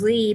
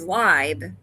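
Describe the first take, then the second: First: The vowel sounds like 'ee'. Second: The vowel sounds like 'eye'. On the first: The speaker calls it wrong. "everybody thought it was Lee" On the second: The speaker calls it right. "but it was Libe"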